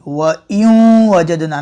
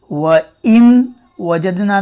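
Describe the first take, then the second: First: व यूं वजदना with a nasal यूं; slow व यूं वजदना, sound through the nose; nasal ghunna. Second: व इन वजदना with a clear n; wrong reading. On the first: Teacher demonstrating the correct nasal reading. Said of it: "नाक में आवाज़ जाएगी". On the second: Teacher showing the wrong reading. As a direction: say इन with a crisp n, no hum. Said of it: "व इन वजदना नहीं". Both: Shown as a demonstration.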